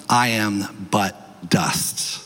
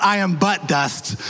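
First: "I am but dust" said slowly, each word weighted, falling to a low "dust"; drawn out and grave, "I am but dust"; slow solemn emphasis. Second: "I am but dust" with the weight thrown onto "but"; wrong emphasis. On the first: Preacher gives the congregation the line to repeat, solemn and slow. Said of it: "tell them". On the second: Preacher jokingly shows the wrong stress to the congregation, playful. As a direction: joke take, punching "but" in "I am but dust". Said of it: "put the right emphasis on the right syllable". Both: Shown as a demonstration.

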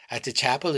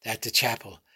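First: Lightly mimicking a child's flat accent, rising; sneering echo, tune rising on chapel; mocking son's flat accent. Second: Lightly mimicking a child's flat accent, falling; sneering echo of the boy, tune falling on chapel; mocking son's flat accent. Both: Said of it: "mimic his son's flat accent".

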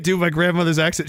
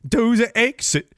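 First: Said in the usual way. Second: Slow, put-on Danish accent; half-attempted Danish grandmother accent. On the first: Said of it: "I can't do my grandmother's accent". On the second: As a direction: try a drawn-out Danish accent, a little higher. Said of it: "five dollars for your Danish grandmother's accent".

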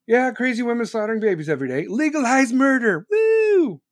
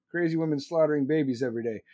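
First: Mock celebration building to a high loud whoop; hammed-up rally cry, rising to a shout; sarcastic cheering. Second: Said in the usual way. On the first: Sarcastic cheering of same words.

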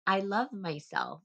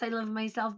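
First: "I love myself" said slowly and softly, tender; slow, sincere "I love myself", no swagger; gentle self-love. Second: "I love myself" tossed off with swagger; cocky badass take on "I love myself"; badass self-love. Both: Shown as a demonstration. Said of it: "Not like I'm a badass".

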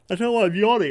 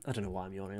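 First: Words stretched by a real yawn, louder and higher; yawning through words. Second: Said again softer, as a sheepish aside; quiet repeat. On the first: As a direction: yawn right through the sentence. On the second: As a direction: mumble it to yourself, half-apologising. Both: Real, not acted.

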